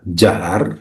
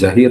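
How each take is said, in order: First: The vowel after the h is 'a'. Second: The vowel after the h is 'i'. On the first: The speaker calls it right. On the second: The speaker calls it wrong.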